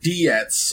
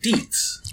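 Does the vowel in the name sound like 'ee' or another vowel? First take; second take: other vowel; ee. First: The vowel is not an 'ee' sound. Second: The vowel is an 'ee' sound, like Deets. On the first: This is how other people say the name. The speaker calls it wrong. "They pronounce it Dietz or Diets" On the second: This is how the family says the name. The speaker calls it right. "people don't pronounce it Dietz"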